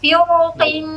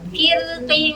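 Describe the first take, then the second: First: The R is pronounced heavy and thick. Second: The R is pronounced light and thin. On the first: "Kalau saya baca tebas" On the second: "ini tipis dulu"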